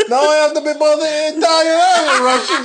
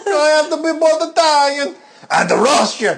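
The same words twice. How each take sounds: First: High hammed-up Italian-Russian accent; squeaky mock Italian-Russian voice; comic Italian-Russian accent; mixed Italian-Russian accent. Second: High, mock-sobbing Italian-Russian voice; comic tearful Italian-Russian accent; crying Italian-Russian accent.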